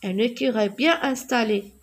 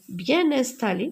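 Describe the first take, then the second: First: Said in the usual way. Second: "bien installé" with an n sound linking bien to installé, said bjɛn ɛ̃stale; liaison in bien installé. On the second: Shown as a demonstration. Teacher to pupils, showing the liaison in "bien installé". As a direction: carry the n of "bien" straight into "installé". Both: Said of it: "je fais la liaison".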